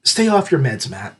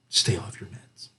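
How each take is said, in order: First: Said in the usual way. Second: Conspiratorial whisper to the author. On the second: Shown as a demonstration. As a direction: whisper stay off your meds, much softer. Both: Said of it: "All I can say is".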